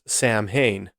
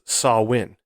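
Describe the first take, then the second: First: The middle is said with separate m and h. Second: The middle is said with a w sound. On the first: The speaker calls it wrong. "you would think it'd be pronounced Sam Hain" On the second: The speaker calls it right. "but it is pronounced Sawin"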